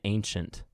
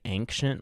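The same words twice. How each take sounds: First: The first syllable does not sound like 'ang'. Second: The first syllable sounds like 'ang'. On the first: The speaker calls it right. "which is probably the right way to say it" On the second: The speaker calls it wrong. "as if it was almost spelled A N G, like ang"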